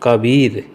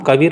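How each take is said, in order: First: The second syllable has a long vowel. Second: The second syllable has a short vowel. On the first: The speaker calls it right. "क ब ऊपर से बड़ी की मात्रा, फिर रॉ, कबीर, इसे बोलते हैं शुद्ध कबीर" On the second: The speaker calls it wrong. "कबीर नहीं"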